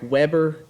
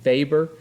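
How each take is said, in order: First: The name begins with a W sound. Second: The name begins with a V sound. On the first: The speaker calls it wrong. "It looks like Weber to you" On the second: The speaker calls it right. "like it's a V"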